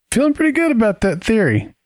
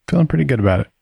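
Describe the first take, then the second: First: High, sing-song smugness; gloat, pitched way up; smug. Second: Said in the usual way. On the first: Acted. Gloating over his theory.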